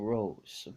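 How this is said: The name is pronounced the English way. "in the English dub, it will be called Super Saiyan Rose"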